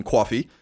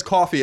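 First: New York "cawfee" vowel in coffee; New York accent. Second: Said in the usual way. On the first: Shown as a demonstration. Host showing the letter's example, coffee in New York accent. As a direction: say coffee as a New Yorker's "cwawfee". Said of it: "very distinct New York accent". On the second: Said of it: "so he says coffee as being coffee".

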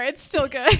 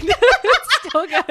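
First: Said in the usual way. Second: Laughing. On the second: Real, not acted. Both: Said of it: "repeats it, laughing".

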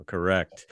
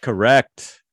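First: Said in the usual way. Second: Louder, higher Correct. with a rising lift; an emphatic "Correct." said loud and high with a rising lift; emphatic confirmation. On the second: Real, not acted.

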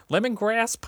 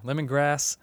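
First: "lemongrass?" asked with a sharp high rise; unsure pronunciation. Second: "lemongrass" settled firmly, level and sure; confident correction. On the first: Doubting host asks the air whether it's "lemongrass". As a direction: test the word "lemongrass" as a question, pitch jumping up. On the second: Host settles on the right word "lemongrass" for listeners. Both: Shown as a demonstration. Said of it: "No, lemongrass".

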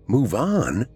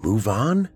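First: "Move on?" pitched up, then falling on "on"; indignant repeat. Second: "Move on?" rising at the end, pitched up; taken-aback question. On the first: Eli repeats her suggestion, "Move on?" falling, indignant. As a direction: throw "Move on?" back with a falling, emphatic end. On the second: Eli drops his smile, "Move on?" rising in disbelief. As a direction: echo "Move on?" as a startled question, lifting on "on". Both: A narrator's reading.

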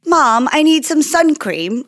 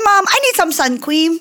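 First: Put-on slightly higher, slower quote of a child; a hint of a kid asking mom; lightly voiced daughter. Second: Imitating young daughter. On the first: Retelling her daughter's request to mom, lightly voiced child. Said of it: "but now she's like". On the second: Showing co-host how her daughter says it, little-kid impression. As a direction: mimic a small child saying "cweam" for cream. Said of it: "That's how she says it".

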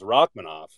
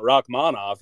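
First: Rachmanov with first-syllable stress and a reduced middle, ROCK-muh-noff; corrected pronunciation. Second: Rachmanov with an open, full AH in the middle, rock-MAHN-off; wrong pronunciation. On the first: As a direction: say Rachmanov with a short, weak second syllable. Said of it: "it's Rachmanov". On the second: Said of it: "I guess it's not Rachmanov". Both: Shown as a demonstration.

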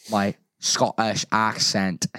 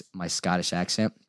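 First: Slow, put-on Scottish accent; labored amateur Scottish accent. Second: Said in the usual way. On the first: Shown as a demonstration. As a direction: say it with a deliberate Scottish lilt.

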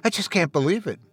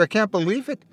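First: Softer, falling, stress on "I"; quieter, overwhelmed repeat; tearful disbelief. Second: High, rising teary wonder on "can't"; tearful disbelief. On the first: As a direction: let "I just can't" sink in tears. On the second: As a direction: lift "can't" up in tearful awe. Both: A narrator's reading. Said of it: "through his tears".

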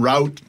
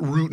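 First: "route" rhyming with out; "ow" vowel in "route"; other pronunciation variant. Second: "root" rhyming with boot; long oo vowel in "root"; one pronunciation variant. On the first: Comparing cross-border words, "route" as rowt. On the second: Comparing cross-border words, "root" with oo. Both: Shown as a demonstration. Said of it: "different words that they say".

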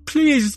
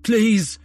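First: Shrieking please, higher and louder; even higher terrified scream. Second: High, loud desperate cry of please; terrified pleading scream. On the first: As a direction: panic climbing into a shriek. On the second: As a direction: beg for his life, screaming. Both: A narrator's reading. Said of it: "crying in agony as he pleaded".

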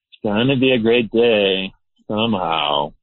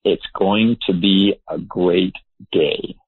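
First: Half-hearted attempt at positivity; unconvinced pep talk to oneself; doubtful affirmation. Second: Slow, deliberate affirmation; measured morning pledge; positive declaration. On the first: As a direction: say it without much conviction, drawing out the end. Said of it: "but I might say it like". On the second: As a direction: state it slowly, word by word. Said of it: "I will say". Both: Shown as a demonstration.

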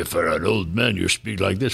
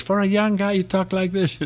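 First: Put-on low, slightly slowed old man's voice. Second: Put-on much higher-pitched young guy's voice. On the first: Dubbing actor showing interviewers his voice change, old man voice. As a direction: drop the pitch into an old man's voice. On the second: Dubbing actor showing interviewers his voice change, young guy voice. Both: Shown as a demonstration.

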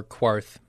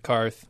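First: QUARTH said slowly with a kw sound at the start; Quarth, opening on a drawn-out kw; her pronunciation. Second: Said in the usual way. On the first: Retold or imitated. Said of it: "as she says".

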